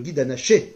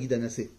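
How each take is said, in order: First: The last word has a 'sh' sound. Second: The last word has an 's' sound. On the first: The speaker calls it right. "Alors le guide anaché" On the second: The speaker calls it wrong. "Pas le guide anassé"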